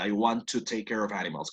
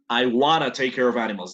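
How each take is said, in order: First: Want to is said as two full words. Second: Want to is blended into wanna. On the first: "no lo pronunció así" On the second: "That's right. Correct"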